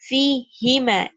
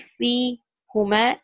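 First: The pronoun is said with the vowel i. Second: The pronoun is said with the vowel u. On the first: The speaker calls it right. "It will be fi hima. It will take kasra" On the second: The speaker calls it wrong. "Fi plus huma will not be fi huma"

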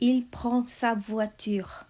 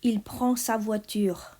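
Both takes have the same delivery.

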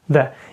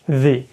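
First: The vowel is a short, weak schwa. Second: The vowel is a full, clear vowel. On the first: The next word starts with a consonant sound. "це звук шва, його не чути" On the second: The next word starts with a vowel sound. "то ми кажемо вже як «the»"

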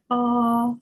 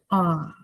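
First: The pitch stays high and level. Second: The pitch dips down, then comes back up. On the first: "Перший рівний, ровний, високий" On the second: "Вниз угору"

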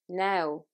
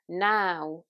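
First: The vowel is closer and further back. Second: The vowel is a big, open ow sound. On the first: "this sound in a Dublin accent comes in a little bit closer and it's said further to the back of the mouth" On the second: "It's a big sound in standard Southern British"

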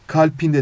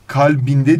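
First: The middle consonant is a voiceless p. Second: The middle consonant is a voiced b. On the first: The speaker calls it wrong. "Kalpinde demiyoruz" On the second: The speaker calls it right. "kalbinde diyoruz"

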